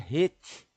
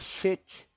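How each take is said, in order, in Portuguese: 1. Começa com um som de 'rr' gutural. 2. Começa com um som de 'sh'. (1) "mas é rete, porque som de R R" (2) "não pode ser chet"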